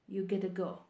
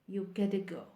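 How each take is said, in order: Both takes have the same delivery.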